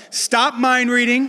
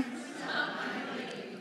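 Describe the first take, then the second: First: Loud and slow with a laugh. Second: Breathy whisper, slow, laughing; whispered to yourself. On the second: Pastor has the crowd whisper the title to themselves, whispering. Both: Shown as a demonstration. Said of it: "say it to yourself".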